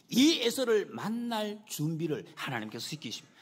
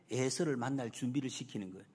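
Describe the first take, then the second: First: "이" hit hard and stretched at the start; emphatic restatement. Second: Said in the usual way. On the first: Real, not acted. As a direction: drive the point home, leaning long on "이". Same point restated with emphasis.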